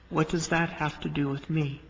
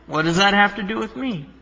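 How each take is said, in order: First: It is said with a gentle, respectful tone. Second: It is said with a snarky, sarcastic tone. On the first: The speaker is addressing someone with respect. "it was more of a term of respect" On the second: The speaker is being harsh and dismissive. "You can read it with snark in your voice"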